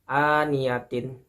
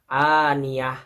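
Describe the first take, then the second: First: The word ends with a full -tin syllable. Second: The word ends with a soft h sound. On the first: The word continues without a stop. "Huruf ta di bawahnya ada tanda baca kasroh ya" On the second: The reader stops on this word. "akan melebur menjadi ha ya"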